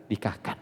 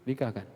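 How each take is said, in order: First: Breathy hushed Nikahkan, no voice; whispered nikahkan. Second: Said in the usual way. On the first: Real, not acted. Preacher whispering advice to the congregation, hushed whisper.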